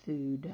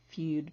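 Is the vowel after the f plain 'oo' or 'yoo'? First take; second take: oo; yoo. First: The vowel after f is a plain 'oo' sound. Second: The vowel after f is a 'yoo' sound. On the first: The speaker calls it right. "but it's food" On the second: The speaker calls it wrong. "Looks like feud"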